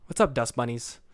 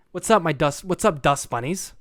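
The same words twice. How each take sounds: First: Said in the usual way. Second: Louder, hyped host greeting; trying out a louder intro greeting; podcast intro greeting. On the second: Shown as a demonstration. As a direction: greet the fans like opening a show. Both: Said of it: "call you guys dust bunnies".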